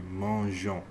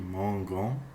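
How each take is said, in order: First: The g is said soft, like in measure. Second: The g is said hard, like in go. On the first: The speaker calls it right. "they put an E in between" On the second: The speaker calls it wrong. "it would be mangon, which doesn't sound very good in French"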